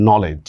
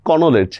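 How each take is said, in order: First: "নলেজ" with a silent K; spoken pronunciation. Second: "কনোলেজ" with the silent K voiced; spelling pronunciation. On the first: Teacher showing how it is really said, "নলেজ" without K. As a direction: say "নলেজ" as no-lej, starting on N. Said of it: "উচ্চারণ করতেছি কিন্তু আমি নলেজ". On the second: Teacher showing learners the written form, "কনোলেজ" with sounded K. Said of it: "এগুলা কিন্তু উচ্চারণ হচ্ছে না". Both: Shown as a demonstration.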